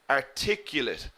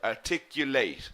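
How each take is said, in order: First: The stress is on the second syllable only. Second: The final syllable also carries stress. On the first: The word is used as an adjective. "the adjective we pronounce differently. We put the stress in the second syllable" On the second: The word is used as a verb. "We stress the late in the verb"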